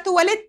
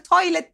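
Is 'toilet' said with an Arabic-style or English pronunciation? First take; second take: Arabic-style; English. First: The word is said with an Arabic-style pronunciation. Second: The word is said with an English pronunciation. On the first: "قابلت واحد عربي وقال لي النهارده تواليت" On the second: "بدل toilet"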